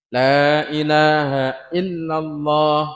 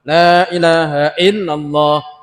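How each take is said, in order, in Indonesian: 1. Frasa itu diucapkan dengan lambat dan santai. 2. Frasa itu diucapkan dengan cepat. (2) "tambah cepat"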